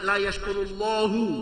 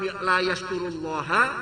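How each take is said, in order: First: The last word ends with a 'u' vowel. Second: The last word ends with an 'a' vowel. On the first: God will not reward him. "dia waca rafa" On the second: He does not thank God. "dibaca nasab"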